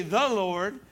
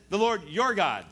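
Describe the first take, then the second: First: "The" leaned on, voice rising at the end; emphasize "The" as the rejected wording; stress on "The". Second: "your" punched, falling away on "God"; stress on "your". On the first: Preacher shows what Saul doesn't say, stress on "The". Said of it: "He doesn't say". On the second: Preacher shows what Saul does say, stress on "your". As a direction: hit "your" to shift ownership. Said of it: "He says". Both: Shown as a demonstration.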